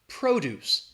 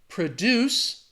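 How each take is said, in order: First: The stress is on the first syllable. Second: The stress is on the second syllable. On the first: It is the noun meaning farm products. "The stress is on that first syllable" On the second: It is the verb meaning to create something. "that stress is on the second syllable"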